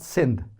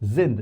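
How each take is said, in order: First: The word begins with a hissing s sound. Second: The word begins with a buzzing z sound. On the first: The speaker calls it wrong. "not sind" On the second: The speaker calls it right. "if after S comes a vowel, mostly it is pronounced as Z. So this is sind"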